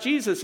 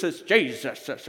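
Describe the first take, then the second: First: Said in the usual way. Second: Jesus drawn out slow with extra syllables; mock pious Jesus. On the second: Shown as a demonstration. Preacher mocking know-it-alls, saying Jesus drawn out slow. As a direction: stretch Jesus into extra syllables, holy-voiced. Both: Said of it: "you add extra syllables".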